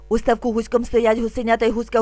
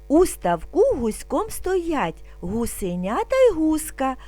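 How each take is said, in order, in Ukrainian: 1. Вимовляється дуже швидко. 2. Вимовляється спокійно, повільно. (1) "І дуже швидко" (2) "Спочатку будемо вимовляти спокійно, не спіша"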